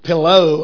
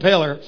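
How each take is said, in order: First: The word ends in an 'oh' sound. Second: The word ends in an 'er' sound. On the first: "It's really pillow" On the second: "if you're from a country, you say"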